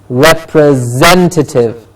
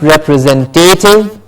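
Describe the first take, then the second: First: The ending is said as 'tative'. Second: The ending is not said as 'tative'. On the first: The speaker calls it right. "It is a tative at the end" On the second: The speaker calls it wrong. "Not representative"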